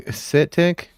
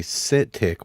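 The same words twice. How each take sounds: First: "sit tick?" raised in a question, higher on tick. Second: "sit tick" flat, falling on tick; "sit tick" quoted flat with a falling end; sit tick said plain. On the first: Streamer echoing the phrase in disbelief, rising question. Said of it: "Notice how Elman". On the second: Streamer quoting the nerds' phrase plainly. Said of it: "I hear one of you fucking nerds say". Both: Shown as a demonstration.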